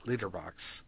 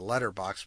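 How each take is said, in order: First: The first vowel sounds like 'lit'. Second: The first vowel sounds like 'let'. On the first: "but they pronounce it litterbox" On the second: "they call it a letterbox"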